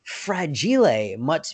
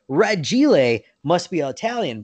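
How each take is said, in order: First: "Fragile" with the F, drawn out as fra-JEE-lay; misquoted movie line. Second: "Ragile" with no F, said ra-JEE-lay; F left off. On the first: People misquoting the movie, "Fragile" as slow fra-JEE-lay. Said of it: "whenever somebody quotes that movie". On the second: Repeating the real movie quote, "Ragile" as ra-JEE-lay without F. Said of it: "because the F is off there". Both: Retold or imitated.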